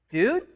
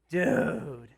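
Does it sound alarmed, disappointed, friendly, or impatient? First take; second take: alarmed; disappointed. First: It sounds alarmed, like a frightened question. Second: It sounds disappointed, like scolding a blunder.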